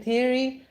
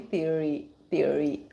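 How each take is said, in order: First: Said in the usual way. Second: "theory" with a pronounced American R in the middle; rolled R. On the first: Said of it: "doing a theory session in India". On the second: Shown as a demonstration. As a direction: roll the R inside "theory". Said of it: "the R".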